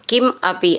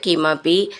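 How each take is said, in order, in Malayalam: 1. ഈ രണ്ടു വാക്കുകളും വെവ്വേറെയാണ് പറയുന്നത്. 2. ഈ രണ്ടു വാക്കുകളും ചേർത്ത് ഒന്നാക്കിയാണ് പറയുന്നത്.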